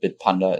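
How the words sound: The name is said with a German pronunciation. "more like a German would pronounce it"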